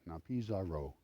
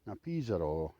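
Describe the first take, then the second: First: It is said with an English accent. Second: It is said with a Spanish accent.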